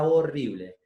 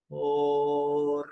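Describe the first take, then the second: First: Said in the usual way. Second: Horrible stretched slowly, every sound held; drawn-out horrible. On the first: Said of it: "Por ejemplo, digo la palabra horrible". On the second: Shown as a demonstration. Voice teacher to workshop group, slow stretched Horrible. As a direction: draw out Horrible slowly, syllable by syllable. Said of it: "digo la palabra horrible".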